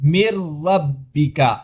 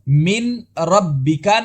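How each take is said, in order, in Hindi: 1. नून पूरी तरह र में मुदगम हो जाता है। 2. र से पहले नून साफ़ बोला जाता है। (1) "नून मुकम्मल तौर पर रा में मुदगम हो गया" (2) "नहीं कहा"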